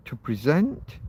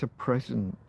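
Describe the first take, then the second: First: "present" said pre-SENT, the verb, held out; stress on second syllable. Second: "present" said PRES-ent, the noun, falling away; stress on first syllable. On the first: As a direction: land hard on the last syllable of "present". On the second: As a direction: put the weight on the start of "present". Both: Shown as a demonstration. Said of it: "where do you put the emphasis?".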